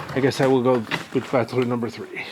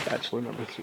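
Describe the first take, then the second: First: Said in the usual way. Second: Muttered to himself, much softer; quiet aside. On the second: Real, not acted. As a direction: repeat it under your breath, much softer. Joke choice repeated quietly.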